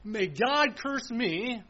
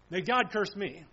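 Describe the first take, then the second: First: Slow, drawn-out solemn oath. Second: Said in the usual way. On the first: Retold or imitated. Preacher voicing Peter swearing, slow solemn oath. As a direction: stretch out every word of the curse. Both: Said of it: "something like this".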